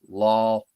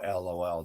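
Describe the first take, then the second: First: It is pronounced as a single word. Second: It is spelled out as three separate letters. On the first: "People say it as a word now" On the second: "They don't say"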